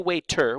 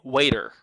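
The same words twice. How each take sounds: First: The middle consonant is a clear T sound. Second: The middle consonant is a quick flap sound. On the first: The speaker calls it wrong. "We don't say waiter" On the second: The speaker calls it right. "we say waiter. So we change from a T to a flap"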